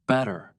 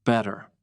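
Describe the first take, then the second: First: "Better" said slowly, each sound clear; slow careful "Better"; slow careful word. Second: Relaxed natural "Better"; natural flap T. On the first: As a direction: spell out "Better" slowly with a crisp T. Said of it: "Say the word better slowly". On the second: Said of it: "Now say it naturally". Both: Shown as a demonstration.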